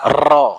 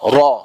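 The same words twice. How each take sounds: First: The r is trilled with many vibrations. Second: The r is a single quick tap. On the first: The speaker calls it wrong. "bukan ro" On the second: The speaker calls it right. "sekali getaran aja dia"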